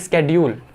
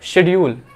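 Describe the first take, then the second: First: The word begins with an 'sk' sound. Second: The word begins with a 'sh' sound. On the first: This is the current pronunciation. "आज बोलते हैं स्केड्यूल" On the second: This is the older pronunciation. "पहले बोलते थे शेड्यूल"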